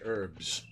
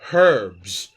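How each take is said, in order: First: It is said the American way, h silent. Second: It is said with an English h sound.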